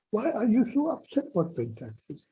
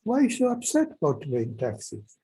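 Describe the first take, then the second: First: Same question asked higher, incredulous; higher teasing repeat. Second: Said in the usual way. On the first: Retold or imitated. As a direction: lift it up, mock disbelief. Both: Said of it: "She was kind of".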